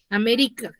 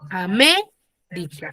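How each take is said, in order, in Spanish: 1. El acento está en la penúltima sílaba. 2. El acento está en la segunda sílaba. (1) "digo que es una palabra grave... está en la penúltima sílaba" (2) "su mayor fuerza de voz está en la antepenúltima sílaba"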